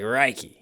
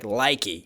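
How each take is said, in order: First: The word begins with an R sound. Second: The word begins with an L sound. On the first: "it sounds like Reiki. You know, like the L is pronounced as an R" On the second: "instead of saying like likey"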